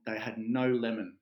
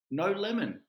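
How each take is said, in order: First: Said in the usual way. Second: "No lemon" pitched high, NO stressed hard and falling; hammed-up outrage, hitting "No" hard; disbelieving stress on no lemon. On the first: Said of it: "He said". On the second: Client retelling ruined dinner to agent, mock outrage on "No lemon". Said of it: "I'm really, really beside myself".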